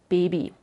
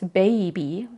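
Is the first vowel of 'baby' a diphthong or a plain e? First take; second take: plain e; diphthong. First: The first vowel is a plain e sound. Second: The first vowel is the English diphthong. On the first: This is how most Germans say it. "Decimos entonces baby" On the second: This is the original English way. "como en inglés baby"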